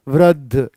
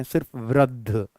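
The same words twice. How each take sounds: First: वृद्ध with no final इ, clipped; teacher shows the common mistake to the class; wrong pronunciation. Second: वृद्ध with the final इ dropped, said softer; teacher imitates students who drop the इ in वृद्धि; wrong pronunciation. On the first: Retold or imitated. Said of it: "वृद्धि भी नहीं". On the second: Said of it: "लोग इसको वृद्ध पढ़ते हैं". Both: Mock wrong reading वृद्ध.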